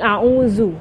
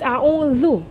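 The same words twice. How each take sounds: First: The middle consonant is a z sound. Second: The middle consonant is a th sound. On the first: The speaker calls it wrong. "following the teacher who was saying it wrong" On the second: The speaker calls it right. "no, it's a'udhu"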